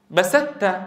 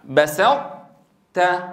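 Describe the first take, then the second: First: بسدت said as a plain د-ت cluster with no emphasis left; the incorrect بسدت, emphatic ط dropped entirely; wrong full merging. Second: بسطت very slow, emphatic ط held then a light ت; slow model بسطت, ط kept, ت not emphatic; correct partial merging. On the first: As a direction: show how بسدت must not be said. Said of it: "ولا ننطق هكذا". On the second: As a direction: drag out بسطت so the ط emphasis is heard before the ت. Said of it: "بحيث نطبق على طاء ونجافي عن تاء". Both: Shown as a demonstration.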